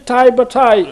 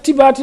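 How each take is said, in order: First: The name is said with English-style 'ai' vowels. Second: The name is said with plain French vowels.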